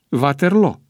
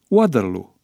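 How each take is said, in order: First: The name is pronounced without an English accent. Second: The name is pronounced with an English accent. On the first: "ceea ce exclude pronunția englezească. Corect este Waterloo" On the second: The song is in English. "formația de muzică pop ABBA ... pronunță Waterloo"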